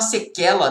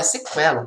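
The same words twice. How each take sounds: First: "sequela" said as se-KE-la; wrong reading of "sequela", qu as k; mispronounced without the u sound. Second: "sequela" said as se-KWE-la; u sound pronounced. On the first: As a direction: say "sequela" with a plain k, silent u. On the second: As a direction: say "sequela" with a kw glide. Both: Shown as a demonstration. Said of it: "não é sequela".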